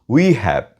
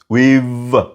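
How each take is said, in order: First: Both words are said fully and separately. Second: The words merge into one contracted syllable. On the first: The speaker calls it wrong. "Don't say we have" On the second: The speaker calls it right. "Say we've"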